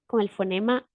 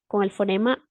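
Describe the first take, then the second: Both takes have the same delivery.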